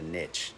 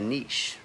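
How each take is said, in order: First: It is said the Southern way. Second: It is said the Canadian or Northern way.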